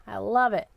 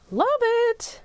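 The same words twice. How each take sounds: First: Said in the usual way. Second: Delighted. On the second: Real, not acted. Repeats her praise, higher.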